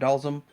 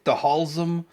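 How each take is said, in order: First: The name is said without an H sound. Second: The name is said with an H sound. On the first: "I remember it Dalsum" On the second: "with pronounce the H"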